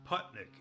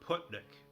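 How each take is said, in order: First: The first vowel sounds like the one in putt. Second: The first vowel sounds like the one in foot. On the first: "as like putting a golf ball" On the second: "rhyming with foot"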